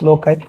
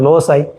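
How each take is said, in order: First: The middle consonant is a K sound. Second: The middle consonant is an S sound. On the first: "some one call it as pronounce it as" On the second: "some one pronounce as"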